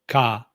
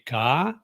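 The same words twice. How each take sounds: First: The pitch stays level throughout. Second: The pitch falls and then rises. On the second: "it goes down, then up"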